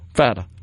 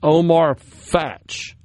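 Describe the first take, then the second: First: The name ends with a vowel sound. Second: The name ends with a 'ch' sound. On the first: The speaker calls it right. "Pardon me" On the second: The speaker calls it wrong. "I think I mispronounced it"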